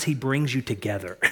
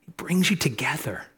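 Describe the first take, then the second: First: Said in the usual way. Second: Chuckling through the words; laughing repeat. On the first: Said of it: "repeats it with a laugh". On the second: Real, not acted. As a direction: let the laugh carry the line. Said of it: "repeats the line laughing".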